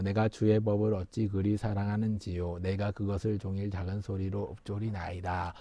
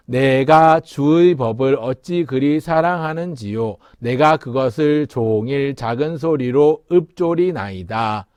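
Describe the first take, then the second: First: Very soft, low recitation; scripture read low and hushed; low murmured reading. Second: Slow, measured verse reading; slow recital in full voice; scripture recitation. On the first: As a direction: murmur the verse under your breath. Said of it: "소리를 내서 읽는 거예요". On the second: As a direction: read the verse out slowly and clearly. Reciting the psalm aloud together. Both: Shown as a demonstration.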